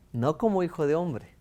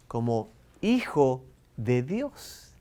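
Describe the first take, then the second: First: Said in the usual way. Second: "como hijo de Dios" drawn out slowly, weight on "hijo"; teacher contrasting son of God with son of man, slow emphatic stress; slow contrastive stress. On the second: Shown as a demonstration.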